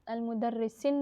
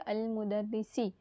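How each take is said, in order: First: The word ends with an added n sound. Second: The word ends on a plain i vowel. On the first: The speaker calls it wrong. "नहीं पढ़ेंगे" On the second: The speaker calls it right. "उसको हम क्या पढ़ेंगे?"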